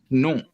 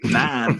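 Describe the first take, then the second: First: The vowel is a nasal 'o' sound. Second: The vowel is an open 'a' sound. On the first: The speaker calls it right. "you'd be saying non" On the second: The speaker calls it wrong. "you wouldn't say nan"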